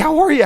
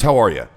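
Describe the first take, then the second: First: It sounds needy and eager to please. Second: It sounds calm, steady and self-assured. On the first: The speaker feels lower in value than the listener. The speaker calls it wrong. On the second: The speaker feels equal in value to the listener. The speaker calls it right.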